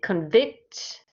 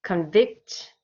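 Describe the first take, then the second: First: The stress is on the second syllable. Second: The stress is on the second syllable.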